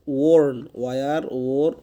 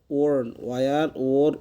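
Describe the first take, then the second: No difference in how they are said.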